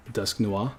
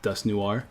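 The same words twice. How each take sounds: First: "Dusk Noir" as dusk-NWAH, R dropped; "Dusk Noir" with an open -wah ending; French pronunciation. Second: "Dusk Noir" as dusk new-ARR, hard R; "Dusk Noir" with a sounded final R; wrong, anglicised pronunciation. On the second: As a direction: say "Noir" slowly as noo-ARR. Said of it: "It's not Dusk Noir". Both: Shown as a demonstration.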